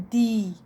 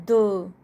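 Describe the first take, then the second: First: "The" said as a long "thee"; drawn-out "thee" for "The". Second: "The" said as a short "duh", louder; short, emphatic "thuh" for "The". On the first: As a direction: stretch "The" with a long ee vowel. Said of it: "its sound will be long". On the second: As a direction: punch out "The" with a short schwa vowel. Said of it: "its sound will be short". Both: Shown as a demonstration.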